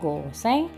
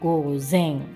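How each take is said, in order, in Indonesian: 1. Konsonan di tengahnya adalah bunyi s yang mendesis. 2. Konsonan di tengahnya adalah bunyi z yang berdengung. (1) "gozeng bukan goseng ya, beda ya pelafalannya" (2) "jadi gozeng bukan goseng"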